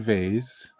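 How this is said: The word is pronounced the American way. "Americans say vase"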